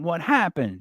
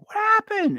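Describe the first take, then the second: First: It is said at a lower, falling pitch. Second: It is said at a raised, high pitch. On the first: "and then it comes back down" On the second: "her voice goes up"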